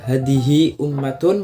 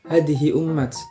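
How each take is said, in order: First: The last word ends with a full -tun. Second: The last word stops on a bare t. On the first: This is the usual form. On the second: This is the form in one tribe's dialect.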